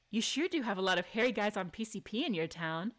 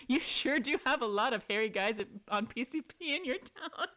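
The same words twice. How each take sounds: First: Calm, smug delivery of the quip; composed cheeky retort; cool sass. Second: Cheeky, sly line with a grin; playful sass, barely held laughter; sassy quip. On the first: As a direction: say it flat and knowing, no giggle. Same line reread as chosen. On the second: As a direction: tease him with mock innocence. Reading the sassy option aloud. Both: Acted.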